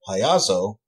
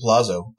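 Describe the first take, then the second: First: The double L is said as a Y sound. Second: The double L is said as an L sound. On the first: It means clown. "the way you would in other uh, Latin origin languages" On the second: It means castle. "is in Italian. It means castle"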